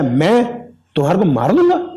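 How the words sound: It sounds weak and doubtful. The speaker doubts being able to do it.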